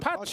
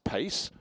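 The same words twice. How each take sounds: First: The name is said as two syllables, 'pah-chay'. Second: The name rhymes with English 'race'. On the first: The speaker calls it right. "of course" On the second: The speaker calls it wrong. "he wasn't called Carlos Pace"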